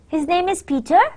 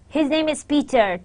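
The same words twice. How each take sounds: First: It is said as a polite, questioning enquiry. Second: It is said with certainty, falling at the end. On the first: It politely asks whether this is so. "That's a polite question" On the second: The speaker is sure it is true. "to convey certainly that his name is Peter. ... So there is a fall"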